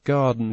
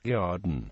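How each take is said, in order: First: The g is plain, with no glide after it. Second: The g is fronted, with a y-like glide after it.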